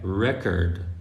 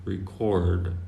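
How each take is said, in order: First: The stress is on the first syllable. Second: The stress is on the second syllable. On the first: It has a different meaning. "if you put the stress on, on the E" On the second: It means to record something. "So the stress is on the O"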